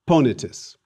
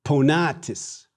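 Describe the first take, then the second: First: Ponitus stressed on its first syllable, PO; antepenult stress. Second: Ponatis slowed, with stress on long NA; penult stress. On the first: Teacher contrasting accents for students, ponitus stressed on PO. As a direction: punch the start of ponitus, short middle I. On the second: Teacher showing the accent shift, ponatis stressed on long NA. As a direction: stretch and stress the middle A of ponatis. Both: Shown as a demonstration. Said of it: "Again, the accent shifts".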